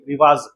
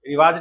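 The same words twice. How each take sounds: First: The final consonant is a 'z' sound. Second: The final consonant is a plain 'j' sound. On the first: The speaker calls it right. "रिवाज जब पे न- नुक्ता है" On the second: The speaker calls it wrong. "रिवाज नहीं"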